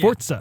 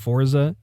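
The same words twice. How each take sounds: First: It is said with an Italian pronunciation. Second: It is said with an English pronunciation. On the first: The speaker calls it right. "actually it's, it's Italian" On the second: The speaker calls it wrong. "I'm used to saying Forza"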